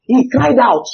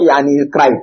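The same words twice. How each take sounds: First: "cried out" lifted high and emphatic; stress on CRIED OUT. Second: Said in the usual way. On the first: Shown as a demonstration. Pastor correcting how the verse is read, "cried out" high. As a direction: pitch "cried out" well above the plain verb. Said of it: "That crying out means something". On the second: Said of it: "It's not".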